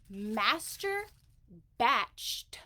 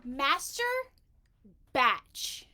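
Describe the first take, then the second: First: "master" rising, "batched" louder and falling, a pause between them; master batched, enunciated. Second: "Master" and "batch" as two separate, louder words with a pause between; master batch, spelled out. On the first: Saying "master batched" carefully again so captions catch it. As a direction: spell out "master batched" slowly. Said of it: "it doesn't put the word master batched". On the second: Enunciating "Master batch" clearly for the auto-captions. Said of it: "Don't F with me, Facebook". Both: Shown as a demonstration.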